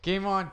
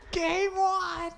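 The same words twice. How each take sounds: First: The pitch stays flat without going up. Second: The pitch jumps up to a higher level.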